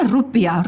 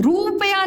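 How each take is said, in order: First: रुपया said "rupiya", short first u; correct short vowel. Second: रुपया misread as "roopaya", long oo; wrong long vowel. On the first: Teacher answering what we say, short "rupiya". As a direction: say रुपया quick and lower, "rup-iya". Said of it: "क्या बोलते हैं?". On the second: Teacher showing what we don't say, long "roopaya". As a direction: stretch the first vowel of रुपया high, "roo-paya". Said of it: "रुपया नहीं बोलते हम". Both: Shown as a demonstration.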